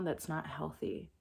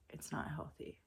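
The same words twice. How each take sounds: First: Said in the usual way. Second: Breathy whispered repeat. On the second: Shown as a demonstration. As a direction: drop to a whisper to drive it home. Repeats phrase, then whispers it.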